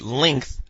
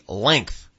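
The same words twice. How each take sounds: First: The vowel sounds like 'ih', as in 'linth'. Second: The vowel sounds like 'eh', as in 'leng'. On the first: The speaker calls it wrong. "I used to say length" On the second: The speaker calls it right. "but it's apparently length"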